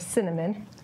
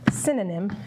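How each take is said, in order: First: The word sounds like 'cinnamon'. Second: The word sounds like 'synonym'. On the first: "or cinnamon" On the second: "as Veronica says"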